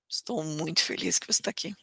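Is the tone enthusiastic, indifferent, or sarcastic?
indifferent. The voice sounds flat and indifferent. The speaker does not really care. "Eu mostro indiferença"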